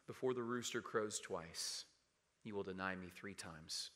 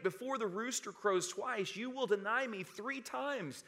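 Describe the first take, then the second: First: Low, subdued and hushed; somber recollection. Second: High-pitched, emphatic prophecy; solemn warning. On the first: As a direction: recall the warning softly, with regret. Peter recalls the warning, grieving. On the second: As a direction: preach the warning out in a raised, ringing pitch. Jesus's warning, preached aloud. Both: Acted.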